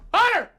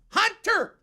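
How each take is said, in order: First: The T is quick and softened. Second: The T is crisp and emphasized. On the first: The speaker calls it right. "like we're from" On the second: The speaker calls it wrong. "if you're one of these T people"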